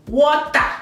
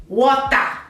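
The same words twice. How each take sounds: No difference in how they are said.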